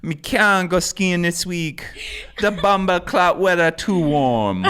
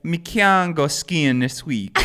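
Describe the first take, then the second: First: Slow, high, loud Jamaican patois; Jamaican accent. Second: Jamaican patois breaking into laughter; Jamaican accent. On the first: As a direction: put on a steady Jamaican accent, pitched up. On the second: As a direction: laugh through a high, slow Jamaican accent. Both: Pretend. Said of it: "I say that I do that accent".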